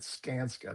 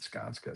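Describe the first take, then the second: First: The name is said with an American pronunciation. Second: The name is said with a Swedish pronunciation. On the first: "In the U S, they pronounce it Skanska" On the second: "in Sweden, they pronounce it Skanska"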